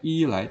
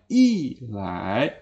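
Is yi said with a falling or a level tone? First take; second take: level; falling. First: Yi is said with a high level tone. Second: Yi is said with a falling tone. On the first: The speaker calls it wrong. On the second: The speaker calls it right. "Tapi I, lai. / maka I ini juga dibaca I"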